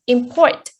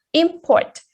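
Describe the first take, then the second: First: Import stressed on PORT, ending with a rise; im-PORT, the verb, with second-syllable stress. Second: Import stressed on IM, falling away; IM-port, the noun, with first-syllable stress. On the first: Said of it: "stress is put on the second syllable". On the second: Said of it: "stress is put on the first syllable". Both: Shown as a demonstration.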